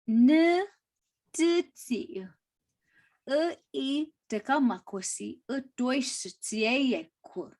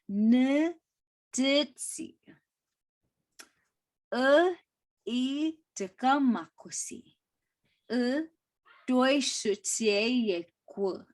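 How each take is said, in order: First: The sentence is spoken at a quicker pace. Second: The sentence is spoken at a slower pace. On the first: "I try to say that slow" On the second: "Let me try to say it slower"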